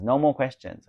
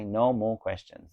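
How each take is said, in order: First: Higher and louder, fed up; exasperated no more questions; exasperated insistence. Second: Slow, each word spaced, NO leaned on; slow emphatic no more questions; slow firm repeat. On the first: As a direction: cut the questions off sharply. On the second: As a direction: lay down the rule word by word. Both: Real, not acted. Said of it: "Oh my God, still questions".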